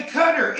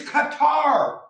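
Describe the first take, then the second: First: Qatar said as KUH-ter, stress on the first syllable; the mocked wrong way: KUH-ter. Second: Qatar said slowly as kuh-TAR, stress on the end; Qatar with a long final TAR; correct Qatar. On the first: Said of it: "It's Qatar". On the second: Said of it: "They say Qatar". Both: Shown as a demonstration.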